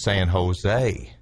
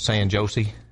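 First: Jose begins with an H sound. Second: Jose begins with a J sound. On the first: This is how locals say it. The speaker calls it right. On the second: The speaker is not from the local area. The speaker calls it wrong.

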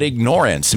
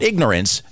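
First: The middle syllable sounds like the word ignore. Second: The middle syllable is reduced as in ordinary ignorance. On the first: Choosing to ignore something. The speaker calls it right. "meaning, you know what, we're just going to ignore them" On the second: Lacking knowledge. The speaker calls it wrong. "Not ignorance"

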